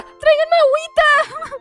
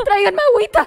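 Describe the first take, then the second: First: High, hammed-up swooning cry; fainting diva. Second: Quick dramatic call for water; fast fainting plea. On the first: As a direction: overplay a fainting starlet. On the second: Acted. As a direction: rush it like a swooning diva. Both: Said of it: "Se desmaya".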